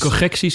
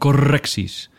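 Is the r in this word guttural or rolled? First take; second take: guttural; rolled. First: The r is a guttural sound at the back. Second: The r is rolled with the tongue tip. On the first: "Ze heeft een GR en geen RR" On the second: "in plaats van"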